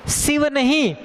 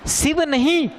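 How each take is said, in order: The two takes are said the same way.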